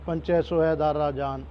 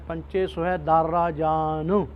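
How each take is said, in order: First: The last word ends without a short u sound. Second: The last word ends with a short u sound. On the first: The speaker calls it wrong. "ਇਸ ਤਰ੍ਹਾਂ ਨਹੀਂ ਬੋਲਣਾ" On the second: The speaker calls it right. "ਇਹ ਔਂਕੜ ਨੂੰ ਆਪਾਂ ਕਿਵੇਂ ਉਚਾਰਨ ਕਰਨਾ ਹੈ"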